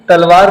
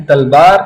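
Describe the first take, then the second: First: Said in the usual way. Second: تلبار said as talbaar with a b; تلبار as talbaar, Calcutta Urdu; Kolkata Urdu v to b. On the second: Shown as a demonstration. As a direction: swap the v for b in تلبار. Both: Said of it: "تلوار کو بولتے ہیں تلبار".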